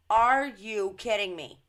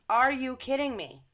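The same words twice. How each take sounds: First: Louder, disbelieving cry; loud first take of are you kidding me; incredulous outburst. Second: Higher, louder second take of are you kidding me; higher incredulous repeat. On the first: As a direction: react as if you can't believe what you just read. Reacting to Cuba news. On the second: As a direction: pitch jumps up on the second are you kidding me, still loud. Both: Real, not acted.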